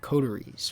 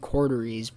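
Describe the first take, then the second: First: The middle consonant sounds like a T. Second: The middle consonant sounds like a D. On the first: It is read the way it is spelled. "but it's C O T E R I E S" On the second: Other people say it this way. "it sounds like they're saying Corderies"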